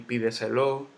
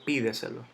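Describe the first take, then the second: First: The stress is not on the first syllable. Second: The stress is on the first syllable. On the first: The speaker calls it wrong. "ni pídeselo" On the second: The speaker calls it right. "Yo digo pídeselo. Entonces llevo la tilde en la i"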